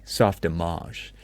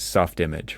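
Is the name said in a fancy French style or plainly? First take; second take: French style; plainly. First: It is said in a showy, French-sounding way. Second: It is said plainly, like two English words. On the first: This signals a more sophisticated, insider pronunciation. "very pretentiously" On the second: This is how a reader naively assumes it sounds. "when you read it, you think it's"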